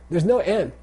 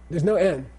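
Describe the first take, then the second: No difference in how they are said.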